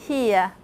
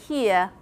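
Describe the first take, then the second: The two takes are said the same way.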